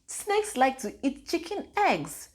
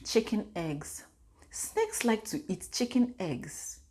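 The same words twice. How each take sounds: First: Higher, slow, amazed echo; a mother echoing her child's words in amazement; astonished repeat. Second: Put-on soft, slow little-girl voice; a lightly voiced toddler, softer and slow; quietly imitating a small child; toddler's quote. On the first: Retold or imitated. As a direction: repeat it back higher in disbelief. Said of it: "I said". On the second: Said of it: "this girl out of the blue said".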